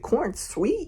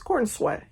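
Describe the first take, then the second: First: The last syllable sounds like 'sweet'. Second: The last syllable sounds like 'sweat'. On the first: The speaker calls it wrong. "Is it corn sweet? No" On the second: The speaker calls it right. "it's corn sweat"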